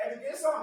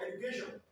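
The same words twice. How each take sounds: First: Put-on Yoruba-accented "education", SH turned to S. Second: Said in the usual way. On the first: Teacher mimicking Yoruba speakers for the class, Yoruba accent. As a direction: say "education" as "edukeson", Yoruba-style. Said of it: "They cannot call S H properly". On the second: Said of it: "instead of what?".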